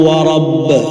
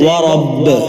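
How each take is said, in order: Both takes have the same delivery.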